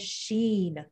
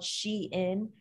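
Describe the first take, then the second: First: It is said as one syllable rhyming with seen. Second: It is said as two syllables, she-in. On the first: The speaker calls it wrong. "I know someone who says Sheen" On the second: The speaker calls it right. "I'm pretty sure it is called Shein"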